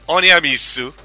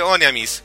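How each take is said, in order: First: The name ends with a final 'su' syllable. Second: The name ends with a final 's' sound. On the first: This is the original Japanese form. "viene básicamente de cómo está escrita en katakana nomás. Que es Oneamisu" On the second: This is the Western form. "para el mercado occidental se le dice Oneamis"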